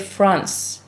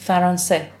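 First: F and R are joined with no vowel between. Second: A vowel separates F and R, ending in e. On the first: "in English you say France" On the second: "In Persian is Faransé"

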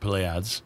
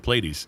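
First: The name is said with a French pronunciation. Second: The name is said with an American pronunciation. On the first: "The French would say it Pleiades" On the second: "us Americans say Pleiades"

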